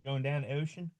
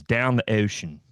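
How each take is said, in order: First: Put-on "Going down the ocean?" in a hard Baltimore accent, softer, asking; Baltimore accent question. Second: Put-on "Down the ocean" with a hard Baltimore accent, flat and stated; a light Baltimore accent saying "Down the ocean". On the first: Host repeating the line in a Baltimore accent, softly asking. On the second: Host voicing God in a Baltimore accent, lightly done. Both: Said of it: "has a hard Baltimore accent".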